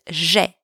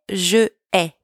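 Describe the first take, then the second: First: The words merge into one syllable without the first vowel. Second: The two words are said separately with both vowels. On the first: The speaker calls it right. "but j'ai" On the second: The speaker calls it wrong. "we don't say je ai"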